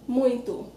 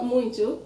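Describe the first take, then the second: First: Muito with nasal ui and final oo; correct version. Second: Muito offered as the form to avoid; wrong version. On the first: Teacher gives the Portuguese form, muito ending in U. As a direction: say muito as MOOYN-too. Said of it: "same O sounding like U". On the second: Teacher corrects Spanish speakers, muito said the mistaken way. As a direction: say muito as the mistaken MWEEN-tyo. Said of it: "in Portuguese it's not muito". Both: Shown as a demonstration.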